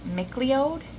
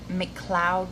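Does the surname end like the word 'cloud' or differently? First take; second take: different; like cloud. First: The surname ends not sounding like 'cloud'. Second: The surname ends sounding like 'cloud'. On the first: The speaker calls it right. "but it's Mc- McLeod" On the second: The speaker calls it wrong. "I keep wanting to say M- McCloud"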